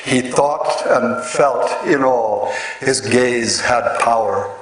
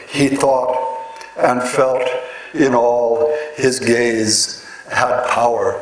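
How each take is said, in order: First: Steady metrical reading; slow even verse recital; reading a verse line. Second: Line broken into iambic feet with pauses; each iamb set apart, beat by beat; scanning the iambs. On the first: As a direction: read the line evenly, letting the beats fall. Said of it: "expressed through this line". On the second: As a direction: pause after each foot to show the beat. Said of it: "word rhythm corresponds closely to the metrical rhythm". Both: Shown as a demonstration.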